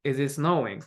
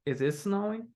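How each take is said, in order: First: "snowing" drops like a statement; wrong falling intonation. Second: Higher, softer, "snowing" going up; rising intonation. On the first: Teacher shows how not to ask it, falling intonation. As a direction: flatten the question, falling on "snowing". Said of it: "It's not like". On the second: Teacher repeats the question example, rising intonation. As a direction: raise the pitch through "snowing". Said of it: "we have Rising Ignition". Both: Shown as a demonstration.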